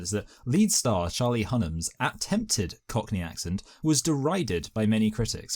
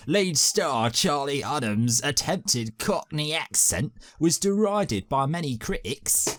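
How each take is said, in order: First: Said in the usual way. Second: Slow, higher put-on Cockney read; mock Cockney accent. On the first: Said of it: "Sorry, wait a minute". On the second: Shown as a demonstration. Host retrying the line in a Cockney accent. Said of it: "Is that good?".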